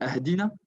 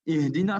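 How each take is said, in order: First: The word begins with an 'ah' sound. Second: The word begins with an 'ih' sound. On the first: The speaker calls it wrong. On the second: The speaker calls it right.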